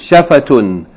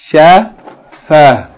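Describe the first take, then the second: First: The word ends with a full 'tun' ending. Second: The word ends on an open 'a' sound. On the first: The reader continues on to the next word. "We said we're going to always read it in the continual mode" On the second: The reader stops on this word. "when you stop on it, it's pronounced like ha"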